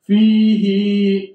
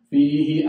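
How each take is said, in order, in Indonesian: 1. Vokalnya dipanjangkan. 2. Vokalnya dibaca pendek. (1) "Kadang-kadang yang tidak panjang dia panjang itu" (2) "padahal bukan"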